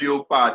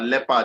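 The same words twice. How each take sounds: First: The first vowel differs from the vowel in head. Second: The first vowel sounds like the vowel in head. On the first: The speaker calls it wrong. "It's not leopard" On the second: The speaker calls it right. "This thing is pronounced as leopard"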